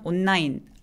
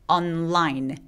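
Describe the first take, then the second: First: The n blends into the l sound. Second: The n and l are both clearly separate. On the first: The speaker calls it wrong. "자음 동화를 하는 습성 때문에" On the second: The speaker calls it right. "N과 L 발음 다 또렷하게"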